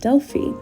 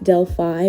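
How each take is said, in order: First: It is said the way locals say it. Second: It is said the familiar English way. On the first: This is how it is said locally. The speaker calls it right. "the correct pronunciation is" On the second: This is how the speaker long assumed it was said. The speaker calls it wrong. "All my life, I thought Delphi was pronounced"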